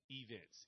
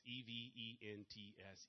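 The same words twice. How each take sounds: First: Said in the usual way. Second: E V E N T S, one letter at a time, slowly; slow spelling so the audience keeps up; spelled out slowly. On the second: Shown as a demonstration. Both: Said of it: "that's why I slow down".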